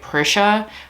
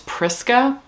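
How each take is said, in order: First: The name ends with a 'sha' sound. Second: The name ends with a 'ska' sound. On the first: The speaker calls it wrong. "I thought her name was like Prisha" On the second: The speaker calls it right. "but it's Priska"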